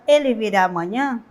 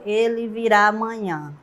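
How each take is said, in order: First: It is said as a direct question. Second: It is said as a plain statement. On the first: The speaker wants an answer. "quando eu faço a pergunta direta" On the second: The speaker simply affirms a fact. "Eu iria afirmar"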